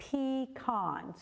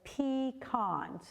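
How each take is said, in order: First: It is said the Upper Peninsula way. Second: It is said the Upper Peninsula way.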